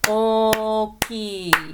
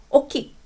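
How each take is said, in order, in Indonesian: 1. Kata ini dipanjangkan merata sampai empat ketukan. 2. Kata ini diucapkan pendek, kurang dari empat ketukan. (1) "Ini ada empat bunyi ya, jadi Anda harus ucapkan" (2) "Nggak bisa oki atau oki, nggak bisa ya"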